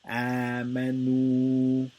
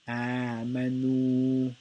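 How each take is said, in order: Both takes have the same delivery.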